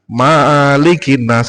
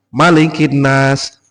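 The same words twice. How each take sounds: First: The first vowel is held long. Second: The first vowel is kept short. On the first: The speaker calls it wrong. "nah itu salah salah besar" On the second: The speaker calls it right. "ma pendek di surat An-Nas"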